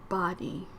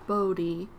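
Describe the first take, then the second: First: The first syllable has a short O vowel. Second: The first syllable has a long O vowel. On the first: The speaker calls it right. "The correct way to pronounce it" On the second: The speaker calls it wrong. "with a long t- southern O"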